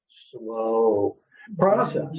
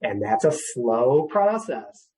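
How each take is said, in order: First: Long, drawn-out slow, then process; said slowly. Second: Said in the usual way. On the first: Shown as a demonstration. Counselor repeating slow process deliberately slowly. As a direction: lean on slow and let it hang. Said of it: "I'll say it slow even". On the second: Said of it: "You're gonna hear this word slow".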